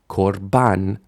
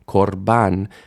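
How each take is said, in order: The two takes are said the same way.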